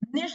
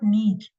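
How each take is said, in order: First: It has a short vowel and ends in 'sh'. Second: It has a long vowel and ends in 'ch'. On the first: The speaker calls it right. "निश is not नीच" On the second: The speaker calls it wrong. "Please निश को ना नीच कहना बंद कर दो"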